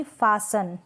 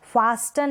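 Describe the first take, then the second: First: फासन with no t; silent T. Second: फास्टन with a clear t; T sounded. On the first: Teacher correcting the misreading, फासन without t. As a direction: say फासन as "faa-san". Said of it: "क्या पढ़ेंगे". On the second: Teacher showing the misreading, फास्टन with t sounded. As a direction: say फास्टन as "faas-tan". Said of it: "नहीं". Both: Shown as a demonstration.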